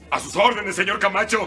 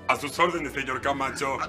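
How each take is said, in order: First: It is said very loudly and forcefully. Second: It is said with moderate, restrained force. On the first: The speaker calls it right. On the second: The speaker calls it wrong.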